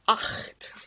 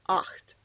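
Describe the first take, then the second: First: The ch sound is harsh and strongly throaty. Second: The ch sound is soft and lightly throaty. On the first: The speaker calls it wrong. "Some people try to use their throat too much and go" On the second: The speaker calls it right. "you don't need to do it that much, just"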